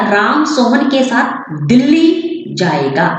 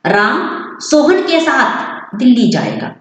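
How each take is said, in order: First: Delhi punched, the rest said evenly and slowly; stress on Delhi. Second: Sohan stressed with a falling tune, slow; stress on Sohan. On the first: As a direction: hit Delhi, keep other words even. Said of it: "लेकिन दिल्ली के ऊपर ज्यादा stress पड़ा". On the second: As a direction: lean on Sohan instead of Delhi. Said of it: "यही वाक्य है मेरा". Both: Shown as a demonstration.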